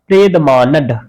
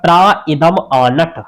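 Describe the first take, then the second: First: The words are merged together into one run. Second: The words are split apart and said separately. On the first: "यहां लिखा है प्रेद मानंग मानड" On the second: "उसको तोड़ेंगे तो आएगा"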